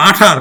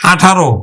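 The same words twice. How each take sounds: First: "আঠার" closed on the r; bare r ending on "আঠার"; read as written. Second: "আঠারো" ending in a clear ro; final o sound. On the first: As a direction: say "আঠার" with no vowel after r. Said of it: "ঠয়াকার র". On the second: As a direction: say "আঠারো" with an o after r. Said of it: "রয় ওকারে রো". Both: Shown as a demonstration.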